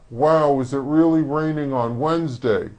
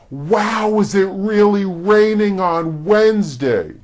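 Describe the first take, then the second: First: It is said with flat lips, little movement. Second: It is said with wide, open mouth movement.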